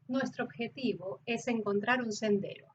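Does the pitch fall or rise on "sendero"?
fall. The pitch falls on "sendero" before the comma.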